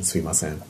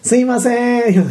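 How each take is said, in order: First: It is said in a normal voice. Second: It is said in a high-pitched, nasal voice.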